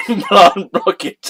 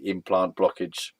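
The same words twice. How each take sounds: First: "Implant blockage" said slow, higher and louder, through laughter; "Implant blockage" cracking up mid-phrase; "Implant blockage" giggled out slowly; laughing. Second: Said in the usual way. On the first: Real, not acted. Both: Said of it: "can't say these words without laughing".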